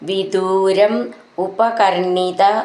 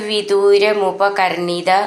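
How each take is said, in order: First: The words are said separately, not run together. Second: The words are run together into one unit.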